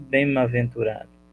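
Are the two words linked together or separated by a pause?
linked. The m sound links straight into the next word. The speaker calls it wrong.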